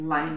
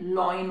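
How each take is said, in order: First: The first vowel sounds like 'lie'. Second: The first vowel sounds like 'law'. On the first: The speaker calls it right. "लायन होता है तो लाइन बोलेंगे" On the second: The speaker calls it wrong. "लॉइन वॉइन नहीं बोलना"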